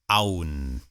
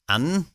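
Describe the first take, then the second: First: The vowel glides, forming a diphthong. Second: The vowel is a single steady sound. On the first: This is how it is said in the West. "what they call a diphthong" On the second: This is how it is said in the East. "There's no diphthong"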